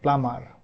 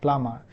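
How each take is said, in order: First: It is said in an American accent. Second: It is said in a British accent. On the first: "U S A people pronounce it like plumber" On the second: "U K people pronounce it like plumber"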